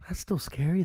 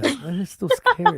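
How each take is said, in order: First: Said in the usual way. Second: "scary" drawn out with a high fall; slow "That is still scary", landing on "scary"; stress on SCARY. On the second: Real, not acted.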